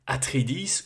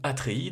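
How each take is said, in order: First: The name is pronounced the English way. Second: The name is pronounced the French way.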